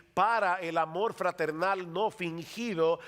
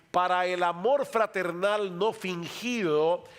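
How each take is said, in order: No difference in how they are said.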